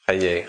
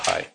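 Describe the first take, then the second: First: The word is pronounced like 'Chaye'. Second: The word is pronounced like 'Chai'. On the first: The speaker calls it right. "it's Chaye" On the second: The speaker calls it wrong. "not Chai"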